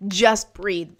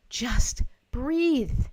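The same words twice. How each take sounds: First: "Just" hit loud, "breathe" kept short; firm instruction. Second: "breathe" drawn out, rising high then falling; calming instruction. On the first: Real, not acted. Coach advises someone in crisis, firm and brisk. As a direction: punch "Just" and say "breathe" without lingering. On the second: Shown as a demonstration. Coach shows viewers how to breathe, calming and drawn out. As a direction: pause after "Just", then let "breathe" flow into a long exhale.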